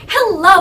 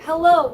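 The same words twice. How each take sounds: First: It is said in an overly dramatic way. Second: It is said in a plain, normal way.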